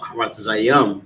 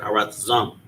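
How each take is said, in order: First: The word ends with an extra 'yim' syllable. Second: The word ends without the extra syllable. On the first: The speaker calls it wrong. "Now Haratazayam" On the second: The speaker calls it right. "but Haratazam"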